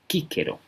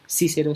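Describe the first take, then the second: First: The C sounds are hard, like k. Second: The C sounds are soft, not like k. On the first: The speaker calls it right. "la C y la G son siempre oclusivas y fuertes" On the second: The speaker calls it wrong. "no decimos Cícero"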